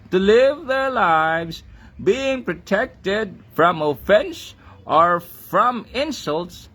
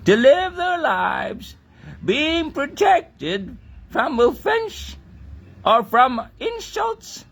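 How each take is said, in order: First: It is said in the speaker's own Filipino accent. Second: It is said in an imitated British accent.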